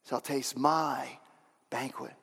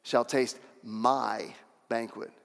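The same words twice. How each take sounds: First: Slow "shall taste my banquet", fading softer at the end; emphasized again. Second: Slow, stressed "Shall taste my banquet"; emphasizing Jesus. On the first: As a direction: stretch out "shall taste my" and let "banquet" drop away. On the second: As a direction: lean hard on "taste" in "Shall taste my banquet", drawn out. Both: Shown as a demonstration. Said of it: "I could just hear Jesus emphasizing that".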